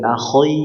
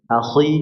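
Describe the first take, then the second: First: The vowel after kh sounds like oi. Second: The vowel after kh sounds like i. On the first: The speaker calls it wrong. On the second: The speaker calls it right.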